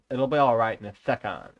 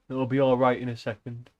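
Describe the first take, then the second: First: It is said in a rough, put-on character voice. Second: It is said in the reader's ordinary voice.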